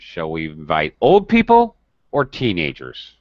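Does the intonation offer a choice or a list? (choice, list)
choice. The intonation offers one option or the other. Only one of the two groups is to be invited. "now it's a choice"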